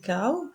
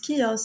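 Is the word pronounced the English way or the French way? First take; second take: French; English. First: It is pronounced with French sounds. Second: It is pronounced with English sounds. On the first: "qui se prononce en français chaos" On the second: "il se prononce chaos en anglais"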